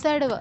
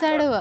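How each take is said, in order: No difference in how they are said.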